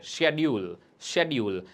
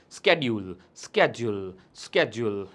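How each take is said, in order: First: British "shed-yool" for શેડ્યુલ; British pronunciation. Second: સ્કેડ્યુલ with a hard sk start, "sked-jool"; American "sked-jool" for સ્કેડ્યુલ; American pronunciation. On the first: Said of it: "British ઇંગ્લિશની અંદર આને આપણે શેડ્યુલ કહેતા". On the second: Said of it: "American ઇંગ્લિશની અંદર આપણે આને સ્કેડ્યુલ કહેતા". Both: Shown as a demonstration.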